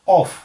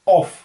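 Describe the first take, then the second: First: The vowel is a rounded 'aw' like 'off'. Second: The vowel is a rounded 'aw' like 'off'.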